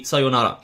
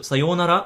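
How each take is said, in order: First: "sayonara" with a quick, short yo. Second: "sayonara" with the yo held long. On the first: Teacher to learners, "sayonara" with a short yo. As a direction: clip the yo in "sayonara". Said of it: "you can make it a shorter one". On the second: Teacher to learners, "sayonara" with a long yo. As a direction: stretch the yo in "sayonara". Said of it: "you can make it a long vowel". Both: Shown as a demonstration.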